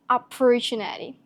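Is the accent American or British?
American. It is said in an American accent. "if you're gonna use the American accent"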